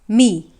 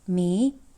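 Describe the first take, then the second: First: The pitch is low and dipping. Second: The pitch rises from mid to high. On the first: "the third tone goes like this" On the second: "it goes up"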